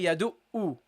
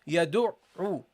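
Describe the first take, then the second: First: The middle consonant is a plain glottal stop. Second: The middle consonant is squeezed deep in the throat. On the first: The speaker calls it wrong. "Don't say yadu'u. ... that's only a hamza" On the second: The speaker calls it right. "pronounce the ain from the throat"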